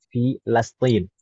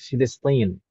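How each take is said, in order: First: The second syllable has an 'a' vowel. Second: The second syllable has an 'i' vowel. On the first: This is the more accurate pronunciation. The speaker calls it right. "yang lebih tepatnya adalah Filastin" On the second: This is how some Arabs say it. The speaker calls it wrong.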